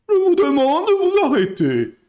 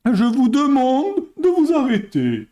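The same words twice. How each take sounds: First: Higher, louder mock politician's plea; bad Balladur impression. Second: A hint of Balladur's solemn plea, a touch higher; bad Balladur impression. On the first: Streamer retelling Balladur hushing the booing crowd. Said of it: "Très mauvaise imitation". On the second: Streamer doing a bad Balladur imitation, mock solemn. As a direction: lightly mimic the politician asking for calm. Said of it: "j'ai fait une très mauvaise imitation".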